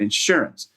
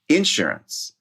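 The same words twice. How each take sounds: First: The stress is on the second syllable. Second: The stress is on the first syllable. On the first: It reflects a non-Southern way of speaking. "she changed it as she said it again" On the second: It reflects a Southern way of speaking. "she stressed the first syllable, which is a very Southern thing to do"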